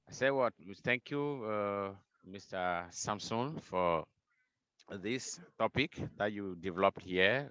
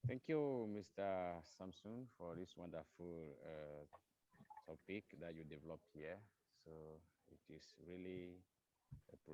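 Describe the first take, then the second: First: Repeating it up so all can hear; speaking up. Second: Barely audible, far from the mic; speaking too softly to be heard; faint, too quiet. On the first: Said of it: "It's better". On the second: Said of it, addressing the speaker: "your voice is down". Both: Real, not acted.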